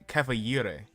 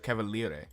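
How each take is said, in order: First: The middle consonant sounds like a Y. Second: The middle consonant sounds like an L. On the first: The speaker calls it wrong. "they pronounced it with a Y instead of an L" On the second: The speaker calls it right. "instead of cavaliere"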